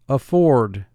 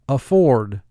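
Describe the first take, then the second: No difference in how they are said.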